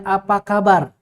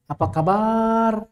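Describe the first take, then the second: First: Said in the usual way. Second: "Apa kabar?" said slowly, every syllable short and even; slow demo. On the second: Shown as a demonstration. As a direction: spell out "Apa kabar?" slowly to show no long vowels. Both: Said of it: "Ada panjangnya nggak di situ?".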